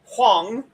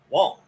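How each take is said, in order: First: It begins with an h sound and a glide. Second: It begins with a w sound, no h. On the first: "The Mandarin pronunciation would be much closer to Huang" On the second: "that would be the Cantonese pronunciation"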